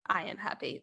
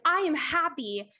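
First: It is said quietly and with little energy. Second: It is said loudly and with lots of energy. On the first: The speaker does not really believe the statement. The speaker calls it wrong. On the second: The speaker truly believes and feels the statement. The speaker calls it right.

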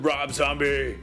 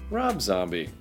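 First: The name is said in a dramatic, hyped way. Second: The name is said in a plain, simple way.

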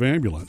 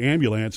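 First: It uses the standard pronunciation. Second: It uses the regional New Orleans pronunciation. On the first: This is how it is usually said. "instead of ambulance" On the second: This is how the family said it growing up. "we would say ambulance"

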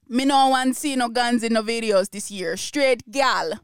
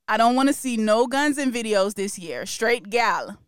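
First: It is said in a put-on Jamaican accent. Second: It is said in the speaker's usual accent.

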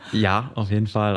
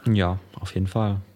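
First: It is said with more certainty. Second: It is said with little certainty.

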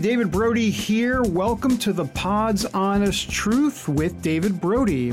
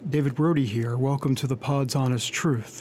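First: It is said in his own upbeat voice. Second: It is said in a calm NPR-style voice.

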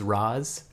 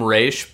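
First: The name has an 'ah' vowel and ends in z. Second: The name rhymes with 'face' and ends in sh. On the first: The speaker calls it right. "the correct pronunciation supposedly is Roz" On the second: The speaker calls it wrong. "I will always call him Raish because of the animated series"

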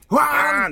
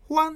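First: The horn sound is long and loud. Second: The horn sound is short and soft. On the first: This is how the horn sounds to people outside. "外から聞くとホワーン" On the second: This is how the horn feels to the driver inside. "気持ち的にはホワンなんだけど"

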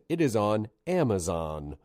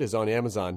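First: The phrase is said slowly and clearly. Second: The phrase is rushed out quickly. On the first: The speaker calls it right. "So I'm just going to say it again" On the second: The speaker calls it wrong. "But I said it really fast. I kind of barreled through it"

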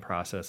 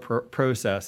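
First: It is said in a plain American way. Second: It is said in a Canadian way.

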